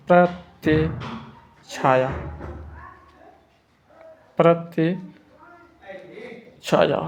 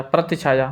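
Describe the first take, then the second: First: प्रतिछाया stretched out very slowly, each syllable held; teacher dictating प्रतिछाया at a crawl; very slow dictation. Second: Said in the usual way. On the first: Shown as a demonstration. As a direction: drag out प्रतिछाया so students can write it down. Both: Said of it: "प्रतिछाया से लिखेंगे".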